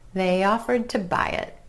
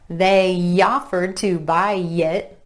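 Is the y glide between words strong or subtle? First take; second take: subtle; strong. First: The y glides are light and subtle. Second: The y glides are heavy and exaggerated. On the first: The speaker calls it right. "It's just a subtle glide" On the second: The speaker calls it wrong. "It's not they offered to buy it, unless maybe you're striving for that southern accent"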